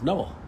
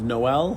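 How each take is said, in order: First: The name is said the masculine way. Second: The name is said the feminine way. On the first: The name belongs to a man. "and man's is" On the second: The name belongs to a woman. "women's pronunciation is"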